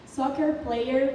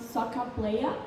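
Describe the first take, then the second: First: It is said with an American accent. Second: It is said with an Australian accent.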